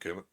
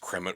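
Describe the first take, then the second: First: The R sound comes right after the vowel. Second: The R sound is moved to another position. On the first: This is the American form of the name. "the American slash Western" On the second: This is the Dutch form of the name. "the Dutch version of Kermit the Frog ... they just swap the uh, the R around"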